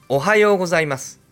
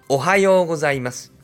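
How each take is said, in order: No difference in how they are said.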